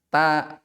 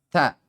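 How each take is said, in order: First: The t is plain, with no breathy hiss. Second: The t has a slight breathy hiss. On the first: The speaker calls it wrong. "bukan ta ta apa namanya? Batu bahasa Indonesia bukan" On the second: The speaker calls it right. "Ada sedikit apa namanya itu? Desis, hamas ya"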